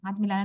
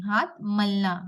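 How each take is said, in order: First: हाथ मिलाना said as the rejected form, with मिलाना in three syllables, mi-laa-naa; हाथ मिलाना given as the word to avoid, said plainly; wrong word, not this. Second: हाथ मलना with मलना in two short syllables, mal-naa, and no i sound; the corrected take, हाथ मलना, said cleanly; correct word. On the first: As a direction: contrast take हाथ मिलाना with the extra i in मिलाना. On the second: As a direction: stress हाथ in हाथ मलना and keep मलना short and clear. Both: Shown as a demonstration. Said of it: "हाथ मिलाना नहीं".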